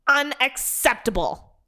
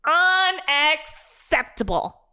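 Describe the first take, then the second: First: "Unacceptable." said high with a firm falling end; first "Unacceptable." stated flatly outraged; indignant. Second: "Unacceptable." slowed right down, every syllable pressed, falling; drawn-out outrage. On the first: Dennis repeats word for emphasis. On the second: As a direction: stretch out "Unacceptable." in disbelief. Repeated slower, more emphatic. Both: Acted.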